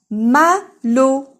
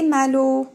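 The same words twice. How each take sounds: First: "Malo" as two loud, higher, separate beats; split into syllables. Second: Said in the usual way. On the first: Shown as a demonstration. Teacher introducing a name, "Malo" syllable by syllable. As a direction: call out "Malo" with a gap between syllables. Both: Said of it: "Malo فيها deux syllabes".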